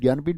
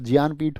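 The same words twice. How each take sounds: First: The first syllable starts with a plain 'gy' sound. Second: The first syllable starts with a 'jny' sound. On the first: The speaker calls it wrong. "ज्ञानपीठ नहीं होता" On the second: The speaker calls it right. "ज्ञानपीठ होता है"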